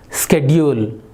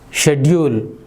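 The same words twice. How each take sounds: First: The word is said in an American accent. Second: The word is said in a British accent. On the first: "In American" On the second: "in British English, how do we pronounce this word?"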